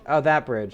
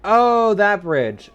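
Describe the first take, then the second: First: Said in the usual way. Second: Sudden loud, high "oh, that bridge"; light up as it clicks; surprised realization. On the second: Real, not acted.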